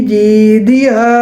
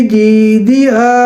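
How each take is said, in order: No difference in how they are said.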